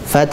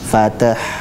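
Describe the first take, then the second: First: The t runs straight into the final h. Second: A vowel is inserted before the final h. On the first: The speaker calls it right. "tapi fath, langsung lari ke ha" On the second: The speaker calls it wrong. "bukan fatah"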